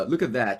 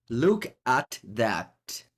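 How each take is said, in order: First: Said in the usual way. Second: "Look at that" drawn out word by word; very slow, spaced-out "Look... at... that"; slow emphatic repeat. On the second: Real, not acted. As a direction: savour each word of "Look at that".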